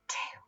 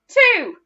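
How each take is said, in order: First: It is whispered very quietly. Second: It is shouted very loudly.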